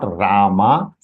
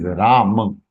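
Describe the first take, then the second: First: "Rama" with final "maa" long and rising; wrong long ending. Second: "Ram" said slowly as "Raa-muh"; short final vowel. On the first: Teacher rejecting the mistake, "Rama" as "Raa-maa". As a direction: lengthen and lift the last vowel of "Rama". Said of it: "It is not Rama". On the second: Teacher giving the correction, "Ram" with short final "muh". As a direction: end "Ram" on a short, unstressed "ma". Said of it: "It is Ram". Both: Shown as a demonstration.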